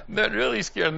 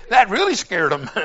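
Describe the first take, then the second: First: Said in the usual way. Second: Laughing. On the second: Real, not acted. Joke scared the flyer.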